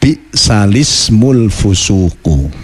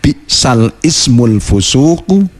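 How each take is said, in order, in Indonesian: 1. Bunyi l langsung menyambung ke ismul dengan i. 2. Ismul diucapkan terpisah dari kata sebelumnya. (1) "tapi harus dibaca"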